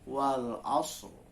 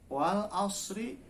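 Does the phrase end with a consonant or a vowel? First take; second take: consonant; vowel. First: The phrase ends on the consonant r. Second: The phrase ends with a final i vowel. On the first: The reader stops at this word. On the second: The reader continues past this word.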